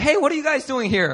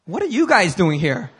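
First: High-pitched casual hello; acted friendly greeting. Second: YOU punched to turn the question back; suspicious stress on YOU. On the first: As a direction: act pleasantly surprised to meet them. Acted casual greeting, turned back next. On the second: Retold or imitated. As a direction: lean on "you", questioning them in return. Question turned back on the couple.

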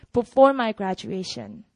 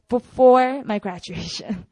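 First: Said in the usual way. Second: Before drawn out slowly and punched; stress on Before. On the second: Shown as a demonstration. Speaker driving home the important timing, stress on Before. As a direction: lean hard on Before, stretching it. Repeats the point, calls it important.

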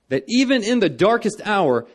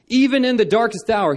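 First: Even in the darkest hour, with even pushed high and loud; preacher's refrain leaning on even; stress on even. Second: Even pushed higher and louder; stress on even, stronger. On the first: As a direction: lift and punch the word even. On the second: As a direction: hammer the word Even. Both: Real, not acted. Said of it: "repeated refrain, rising emphasis".

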